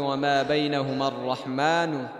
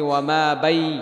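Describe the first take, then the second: First: The reciter pauses after the complete word. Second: The reciter pauses in the middle of a word. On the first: The speaker calls it right. "এমনি থামবেন" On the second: The speaker calls it wrong. "ওয়ামা বাই হইল ওয়াকফ। ... সুন্দর হয় নাই।"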